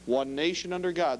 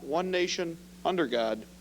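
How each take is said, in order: First: There is no pause after "nation". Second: There is a pause after "nation".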